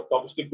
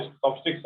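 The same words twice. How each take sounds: First: चॉपस्टिक ending on k, no s; wrong singular form. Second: चॉपस्टिक्स ending in a clear ks; final s sounded. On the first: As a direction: stop चॉपस्टिक at the k without an s. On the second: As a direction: add an s after the k in चॉपस्टिक्स. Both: Shown as a demonstration. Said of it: "चॉपस्टिक नहीं होता".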